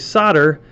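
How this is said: It is said the American way. "for us Americans that say solder"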